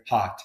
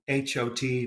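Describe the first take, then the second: First: Hot with an open unrounded ah; American hot. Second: Hot with a rounded RP o. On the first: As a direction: say hot the American way, lips spread. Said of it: "whereas I would say hot". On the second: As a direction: say hot with lips rounded, British. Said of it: "H O T becomes hot". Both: Shown as a demonstration.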